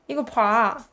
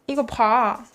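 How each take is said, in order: Both takes have the same delivery.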